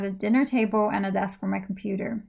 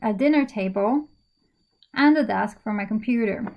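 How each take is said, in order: First: It runs through without a pause before and. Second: There is a pause before the word and. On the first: "If you can go for the whole thing, that's fine as well" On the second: "you could decide to pause b- before and"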